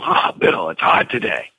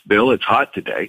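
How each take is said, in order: First: It is said in a complaining, energetic tone. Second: It is said in a neutral, matter-of-fact tone.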